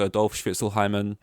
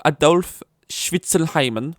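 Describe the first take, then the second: First: Said in the usual way. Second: Put-on high, loud, slow German accent; mock German accent. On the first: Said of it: "'cause the last name is Schwitzelheimen". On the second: German parent proposing the baby's name, in a mock German accent. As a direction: draw the name out in hammed-up German. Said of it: "German's like".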